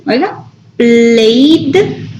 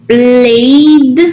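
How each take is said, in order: First: "played" stretched very slowly so the final D is heard; slow model word. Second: Said in the usual way. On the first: Shown as a demonstration. Teacher slowing down "played" for the students to hear the D. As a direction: draw "played" out slowly, landing on D. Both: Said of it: "Vamos a pronunciarlo con D".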